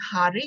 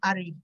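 First: The word begins with an h sound. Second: The word begins without an h sound. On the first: This is the standard Malay form. "Instead of saying Hari" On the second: This marks the speaker as Baba Malay. "they may drop the H sound"

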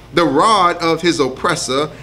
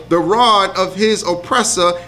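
The two takes are said the same way.

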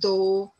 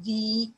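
First: The vowel is short, like 'thuh'. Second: The vowel is long, like 'thee'. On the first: The next word begins with a consonant sound. "When it comes before a word that begins with a consonant sound, it is pronounced as though" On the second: The next word begins with a vowel sound. "When the article the comes before a word that begins with a vowel, it is pronounced as the"

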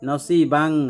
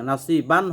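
First: The final n is hidden as a nasal hum. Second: The final n is pronounced as a clear n. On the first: The speaker calls it right. "নসিবাং, নসিবান হবে না, এটা ইকফা" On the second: The speaker calls it wrong. "নসিবান হবে না"

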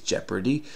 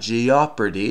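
First: The letter O is not pronounced at all. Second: The letter O is pronounced as a separate vowel. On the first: The speaker calls it right. "So that's a silent O. We don't hear it" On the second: The speaker calls it wrong. "it's not jeopardy"

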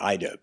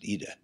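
First: The name is said the American English way. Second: The name is said the Polish way. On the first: "The U.S., we'd call that Ida" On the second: "but they pronounce it Ida"

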